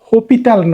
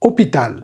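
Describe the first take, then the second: First: The word begins with an h sound. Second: The word begins with a vowel sound. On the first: The speaker calls it wrong. "হপিটাল নয় কিন্তু" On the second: The speaker calls it right. "এইচ বাদ দিয়ে উচ্চারণ শুরু হবে ও থেকে"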